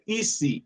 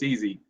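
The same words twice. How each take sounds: First: It is said with a Spanish accent. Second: It is said with a plain English accent. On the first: The speaker calls it wrong. "Like my Spanish friends say" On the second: The speaker calls it right. "Don't pronounce it the wrong way"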